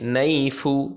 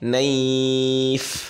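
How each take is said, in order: First: The word ends with a short vowel sound. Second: The word ends on a bare consonant. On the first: The reader continues without stopping. "এখানে যদি না থামি" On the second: The reader stops at this word. "আর যদি থেমে যাই"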